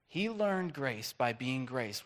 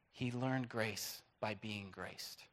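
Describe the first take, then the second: First: Slow, deliberate repeat; slow emphasis. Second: Slow, soft, weighted phrase; slow emphasis. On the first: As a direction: spell it out slowly for the congregation. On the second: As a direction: let each word land slowly. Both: Acted. Repeats key line slowly.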